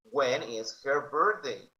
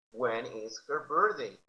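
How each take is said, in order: First: Slow, clear When is her birthday; slow model. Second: Said in the usual way. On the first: Shown as a demonstration. Teacher modelling for students, slow and clear. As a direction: spell out each word for learners. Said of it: "teacher models slowly". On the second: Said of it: "repeat take".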